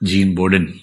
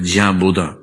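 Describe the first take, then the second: First: The name is said as spelled, final n pronounced. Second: The name is said with French sounds, final n silent. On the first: "जिसको अंग्रेजी में बोडिन तरीके से लिखते हैं" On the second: "फ्रेंच उच्चारण इसका बोना होता है"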